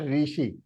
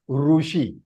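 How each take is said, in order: First: The first syllable sounds like 'ri'. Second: The first syllable sounds like 'ru'. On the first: The speaker calls it wrong. "It is not rishi" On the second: The speaker calls it right. "it is rushi"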